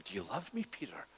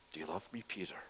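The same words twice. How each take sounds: First: A hushed whisper of the third asking; whispered question. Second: Soft question. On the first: Jesus asks the third time. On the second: Jesus questions Peter again. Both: Acted.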